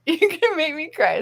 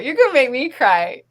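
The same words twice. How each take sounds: First: Laughing, touched. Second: Tearful, touched. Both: Real, not acted.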